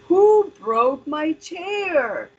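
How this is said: It is said in a Papa Bear voice.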